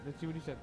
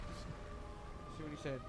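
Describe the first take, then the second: First: Said in the usual way. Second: Slow breathy whisper. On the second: Real, not acted. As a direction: whisper it to yourself slowly. Reading a friend's snap.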